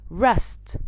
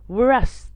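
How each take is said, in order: First: The word begins without a W sound. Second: The word begins with a W sound. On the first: The speaker calls it right. "the W gets silent" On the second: The speaker calls it wrong. "not rest"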